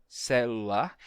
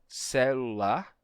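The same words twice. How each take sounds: The two takes are said the same way.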